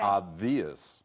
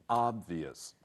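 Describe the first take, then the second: First: The stress is on the second syllable. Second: The stress is on the first syllable. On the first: The speaker calls it wrong. "do not say" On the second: The speaker calls it right. "The first syllable, not the second, has the accent or stress"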